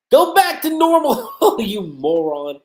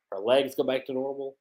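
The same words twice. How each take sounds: First: Bossy Aquarius. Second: Said in the usual way. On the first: Retold or imitated. Aquarius ordering Lucy.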